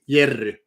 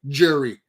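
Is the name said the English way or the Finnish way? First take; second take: Finnish; English. First: The name starts with a Y sound. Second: The name starts with a J sound. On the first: "Finnish people call me Jerry, just like it is written in Finnish" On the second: "when I introduce myself to people speaking English, I always like Jerry"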